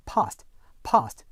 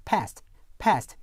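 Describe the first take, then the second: First: PAST as "pahst", long back ah; British long ah. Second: PAST with a front "a" as in cat; American short-A. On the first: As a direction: say past British-style, vowel as in father. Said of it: "영국 표준 영어에서는요". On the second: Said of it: "일반 미국 영어에서는요". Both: Shown as a demonstration.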